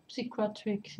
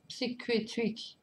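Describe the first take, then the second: First: Said in the usual way. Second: Psychiatric spelled out slowly, syllable by syllable; carefully sounding out Psychiatric, struggling to say it; careful slow try. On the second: Shown as a demonstration. Fan stumbling over the English title Psychiatric, slow and careful. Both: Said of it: "Beaucoup de mal à dire".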